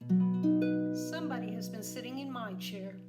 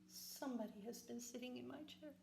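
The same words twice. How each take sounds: First: The voice is of medium size and pitch. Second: The voice is small, little and high. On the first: "in her medium-sized voice" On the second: "in his little wee voice"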